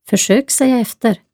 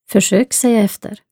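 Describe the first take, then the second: No difference in how they are said.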